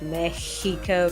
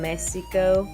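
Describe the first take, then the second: First: The x sounds like a harsh, hissing H. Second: The x sounds like an S. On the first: "like a really hard H, kind of like a cat hissing" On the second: "Sometimes with an S sound"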